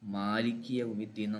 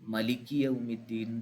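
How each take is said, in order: First: The first vowel of the first word is long. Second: The first vowel of the first word is short. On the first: This is how our own recitation tradition reads it. "നമ്മുടെ ഖിറാഅത്തിൽ" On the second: This is how some other recitation traditions read it. "ചില ഖിറാഅത്തിൽ കാണാം"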